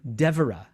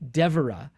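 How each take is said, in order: First: The stress falls on the first syllable. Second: The same.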